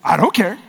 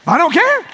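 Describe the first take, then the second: First: Said in the usual way. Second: Emphatic repeat. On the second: Real, not acted. Pastor insists to the church he doesn't mind, emphatic. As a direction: push it up, defiant.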